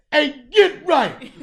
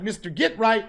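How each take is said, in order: First: "Hey, Get Right" called much higher and louder, drawn out slowly; with your chest. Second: Stiff, proper "Mister Get Right" with a rising tune; too-formal name. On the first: The right way to hail Get Right, loud and slow. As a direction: stretch "Hey, Get Right" out big and proud, laughing. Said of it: "You gotta say". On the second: The wrong way to greet a street friend, stiff and polite. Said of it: "you can't be like". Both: Shown as a demonstration.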